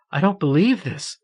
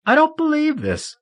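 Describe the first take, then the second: First: Higher, sobbing cry of disbelief. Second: Much higher, near-wailing sob; rising sobbing disbelief. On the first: Marion sobbing over her healed friend, disbelieving. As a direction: sob it out, shaken. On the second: Marion overwhelmed by tears, crying out in disbelief. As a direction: let it break upward into a wail. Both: A narrator's reading. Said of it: "The strength of her sobs doubled her over".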